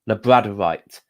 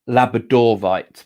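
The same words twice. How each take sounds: First: It does not clearly sound like Labrador plus -ite. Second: It clearly sounds like Labrador plus -ite. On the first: The speaker calls it wrong. "I say it wrong" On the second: The speaker calls it right. "it is actually labradorite because that's where it was first found, was in Labrador"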